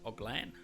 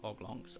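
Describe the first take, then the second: First: The name ends with a 'lan' sound. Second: The name ends with a 'longs' sound. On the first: The speaker calls it right. "Oglan. Again, if that's how you say it" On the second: The speaker calls it wrong. "Not Oglongs"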